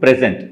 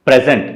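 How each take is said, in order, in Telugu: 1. ఒత్తి రెండో అక్షరం మీద ఉంది. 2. ఒత్తి మొదటి అక్షరం మీద ఉంది. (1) "టు ప్రెజెంట్ అది verb" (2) "it's like a gift"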